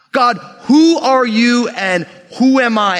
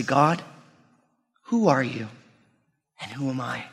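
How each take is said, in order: First: Slow, raised, forceful question to God; emphatic plea. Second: Soft, low question to God, fading away; dialed-back prayer. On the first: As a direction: call out to God, stretching each question. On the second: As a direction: ask God humbly, with long pauses. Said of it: "We need to dial that back". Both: Acted.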